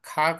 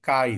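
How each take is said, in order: First: The k is said with a puff of breath. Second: The k is said without a puff of breath. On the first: The speaker calls it wrong. "ఖా కాదు ఇది" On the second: The speaker calls it right. "కా ఇది"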